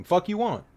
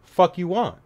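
First: Higher mock tough-guy growl at normal volume; a second, less forceful try at sounding hard; half-hearted tough guy act; acting tough, quieter. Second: Higher, louder tough-guy snarl; mock tough guy barking at a stranger; acting tough. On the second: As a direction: put on a hard-man front to hide fear. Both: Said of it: "I have to act tough".

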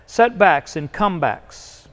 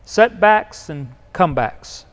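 First: Each word weighed, "setbacks and comebacks" slow and deliberate; preacher's refrain, "setbacks and comebacks" given weight; slow emphatic phrase. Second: "Setbacks and comebacks" slow, each word weighed; slow emphatic phrase. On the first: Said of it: "this was a repeated pattern". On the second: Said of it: "it's happening throughout his life". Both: Shown as a demonstration.

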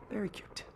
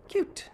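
First: Soft sarcastic whisper under the breath; muttered sarcasm to himself. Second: Said in the usual way. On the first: Acted. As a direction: breathe it out as a dry aside. Sarcastic aside about cat toy.

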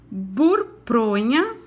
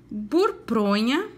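First: "burpronha" drawn out even slower, each syllable clear; very slow, careful word. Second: "burpronha" said slowly, every sound clear; slow, careful word. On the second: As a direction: stretch "burpronha" out for children to copy. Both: Shown as a demonstration. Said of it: "Caprichem na pronúncia".

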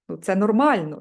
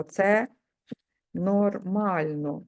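First: Said in the usual way. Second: Це... нормально drawn out very slowly; slow dictation. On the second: Shown as a demonstration. Therapist dictating the phrase to students, very slowly. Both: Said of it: "давайте допишемо".

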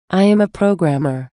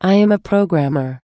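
The two takes are said the same way.

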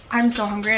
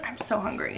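First: Said in the usual way. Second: Breathy, voiceless "I'm so hungry"; whispered "I'm so hungry". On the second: Real, not acted.

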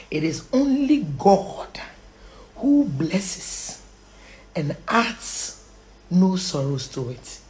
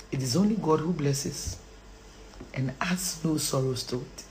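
First: Slow recitation with long pauses; measured, phrase-by-phrase emphasis; deliberate verse. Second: Soft, low recitation; subdued and very soft; hushed verse. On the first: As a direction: set out each phrase separately. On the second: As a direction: recite it quietly, almost under the breath. Hushed first quote of verse. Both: Real, not acted.

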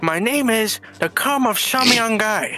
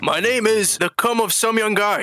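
First: Vietnamese accent. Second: The spy's imitation American accent; put-on American accent. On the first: Shown as a demonstration. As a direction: give the name in a mock Vietnamese accent. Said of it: "hear that in your actual tongue". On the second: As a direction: give the name in an attempted American accent. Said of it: "This is my American accent".

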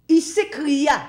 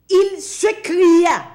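First: Said in the usual way. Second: Loud, high, slowed cry; drawn-out preacher's cry. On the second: Acted. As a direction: stretch the words out like an anguished cry. Preacher dramatizes the rich man's cry.

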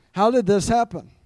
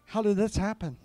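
First: Louder, higher, emphatic disbelief; raised voice, hammed-up amazement; acted astonishment. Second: Quietly baffled, slightly raised pitch; higher-pitched, puzzled question; acted bewilderment. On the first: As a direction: exclaim it as an astonished question. Repeats the amazed reaction more forcefully. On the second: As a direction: wonder aloud in mild disbelief. Acting out amazed reaction to sudden answer.

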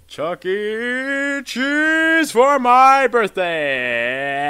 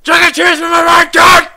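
First: Very slow, stretched-out call; drawn out. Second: Shouting. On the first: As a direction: stretch every syllable long. Repeated spell, stretched out. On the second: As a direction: yell it out hard. Repeated spell, shouted. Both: Real, not acted.

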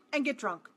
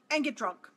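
The two takes are said the same way.

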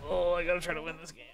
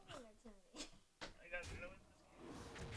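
First: Said in the usual way. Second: Whispered to himself. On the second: Real, not acted. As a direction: whisper it under your breath. Same words whispered.

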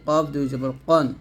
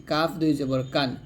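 First: Heavy Q with a rounded vowel in কন; thick qof. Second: Light K with an open A in কান; thin kaf. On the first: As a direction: say কন thick, as qon rather than kan. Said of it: "অবশ্যই মোটা করতে হবে". (কফ মোটা উচ্চারণে) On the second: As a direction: say কান thin, as kan rather than qon. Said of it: "আর কাফটা পাতলা হবে এরকম". (কাফ পাতলা উচ্চারণে) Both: Shown as a demonstration.

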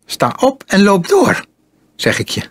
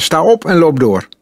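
First: Voice cracking. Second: Higher, brisker command at normal volume; firm order. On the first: Boy with pistol ordering his captive on, voice cracking. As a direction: order him up, voice jumping high. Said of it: "Michiels stem sloeg vervaarlijk over". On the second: Boy refusing to talk to his captive, firmly ordering. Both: A narrator's reading.

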